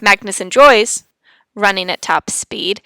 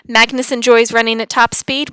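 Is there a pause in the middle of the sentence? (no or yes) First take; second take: yes; no. First: The sentence breaks with a pause partway through. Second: The sentence flows through without any pause. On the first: The speaker calls it wrong. "We don't want to have" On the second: The speaker calls it right. "we never want to put a comma where we don't want to pause"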